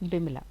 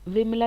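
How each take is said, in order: First: The name begins with a b sound. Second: The name begins with a v sound. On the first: This is the eastern usage. "वहाँ पे बिमला" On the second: This is the southern usage. "Southern में हम व use करते हैं"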